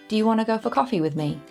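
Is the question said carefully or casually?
casually. It is said casually, with reduced sounds.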